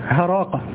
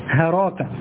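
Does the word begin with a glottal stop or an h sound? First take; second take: h sound; h sound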